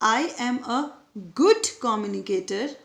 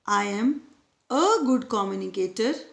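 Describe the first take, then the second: First: The stress falls on the word 'good'. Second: The stress falls on the word 'a'.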